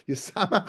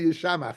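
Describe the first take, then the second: First: The middle consonant is a plain s sound. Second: The middle consonant is an sh sound.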